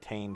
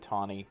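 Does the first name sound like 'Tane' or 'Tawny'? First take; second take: Tane; Tawny. First: The name is said with one syllable, 'Tane'. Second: The name is said with two syllables, 'Tawny'. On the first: This is how people would read the old spelling. The speaker calls it wrong. "everyone would pronounce it Tane Kane" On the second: This is how the name is meant to be said. The speaker calls it right. "so that everyone would pronounce it Tawny"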